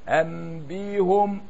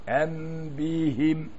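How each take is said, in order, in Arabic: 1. الحركة بعد الهاء ضمة. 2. الحركة بعد الهاء كسرة. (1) "فمن ضم عاد الى الاصل" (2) "ومن كسر فقد كسر للاتباع"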